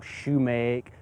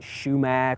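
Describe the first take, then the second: First: It starts with sh and ends in make. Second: It starts with sh and ends in mack. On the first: "or shumake" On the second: "some people may pronounce it shumac"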